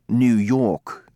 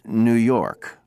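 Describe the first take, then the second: First: British accent, with the r dropped. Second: American accent, with the r sounded. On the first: "New York to the British" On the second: "New York for Americans"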